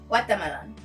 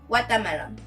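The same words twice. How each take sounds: No difference in how they are said.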